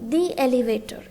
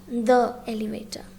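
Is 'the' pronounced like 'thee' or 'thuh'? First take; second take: thee; thuh. First: 'The' is said like 'thee'. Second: 'The' is said like 'thuh'. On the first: The speaker calls it right. "we pronounce it as the" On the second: The speaker calls it wrong. "and not the elevator"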